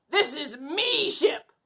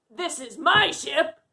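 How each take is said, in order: First: Slow, lightly voiced pirate; pirate talk. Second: Said in the usual way. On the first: Shown as a demonstration. Captain showing kids the pirate way, mild pirate voice. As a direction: say "me ship" slowly like a friendly pirate. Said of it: "You'd say". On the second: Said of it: "You wouldn't say".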